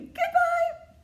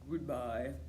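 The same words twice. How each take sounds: First: It is said in a very high voice. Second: It is said in a very low voice.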